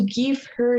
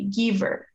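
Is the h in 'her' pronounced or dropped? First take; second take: pronounced; dropped. First: The h sound in her is pronounced. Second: The h sound in her is dropped.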